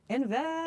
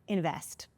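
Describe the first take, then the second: First: The word is said loudly and forcefully. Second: The word is said at normal volume.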